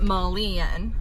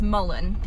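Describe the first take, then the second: First: The last syllable has a different, fuller vowel. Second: The last syllable is a plain 'en' sound. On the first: The speaker calls it wrong. "and not mullein" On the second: The speaker calls it right. "I've been corrected um, before that it's mullein"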